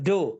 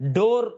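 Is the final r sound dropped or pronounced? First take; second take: dropped; pronounced. First: The final r sound is dropped. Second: The final r sound is pronounced. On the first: "டோ அப்படிம்பாங்க" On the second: "டோர் அப்படின்னு சொல்லாம"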